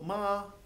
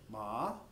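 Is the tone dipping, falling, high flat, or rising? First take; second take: high flat; rising. First: The pitch stays high and level. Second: The pitch rises through the syllable. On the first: "a high flat tone" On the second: "a rising tone, almost like a question"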